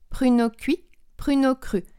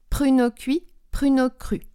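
No difference in how they are said.

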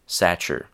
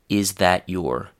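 First: The words are squeezed into one short blended word. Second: Every word is said fully and clearly. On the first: "a very radically reduced pronunciation" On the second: "a very formal, very complete, and totally unreduced pronunciation"

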